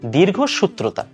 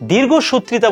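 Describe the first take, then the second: First: No extra vowel comes before the last syllable. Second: An extra i vowel comes before the last syllable. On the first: The speaker calls it right. "মূলত শব্দটা হচ্ছে দীর্ঘসূত্রতা" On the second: The speaker calls it wrong. "পুরোটাই ভুল"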